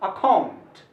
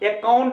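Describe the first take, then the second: First: The second syllable is raised and stressed. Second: The second syllable is not raised or stressed. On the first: The speaker calls it right. "इसको बोलना चाहिए account" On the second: The speaker calls it wrong. "Account नहीं बोला जाता है"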